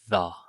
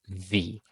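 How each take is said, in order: First: It uses the form said before consonant sounds. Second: It uses the form said before vowel sounds. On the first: "We use the plus a consonant plus a consonant sound. So we use the sound the" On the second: "And we use V plus vowel sounds or vowel sound. And it sounds like this V"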